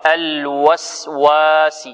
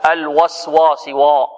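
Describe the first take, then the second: First: الوسواس recited slowly with a thin, light waw; correct light waw. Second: الوسواس وا with a thick, emphatic waw; wrong heavy waw. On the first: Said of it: "وإنما هي واو". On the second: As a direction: show the mistake: fatten the waw in الوسواس. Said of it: "وهذا خطأ". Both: Shown as a demonstration.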